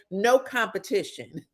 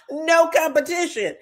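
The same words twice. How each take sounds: First: Said in the usual way. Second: Gloating repeat. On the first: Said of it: "repeated as No competition". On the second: Retold or imitated. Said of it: "repeated higher".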